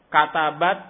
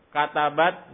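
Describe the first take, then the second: Both takes have the same delivery.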